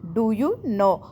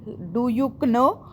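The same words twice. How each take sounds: First: The k sound is silent. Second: The k sound is pronounced. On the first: The speaker calls it right. "के हमारा silent जाएगा" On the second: The speaker calls it wrong. "ये गलत हुई ना हमारी pronunciation"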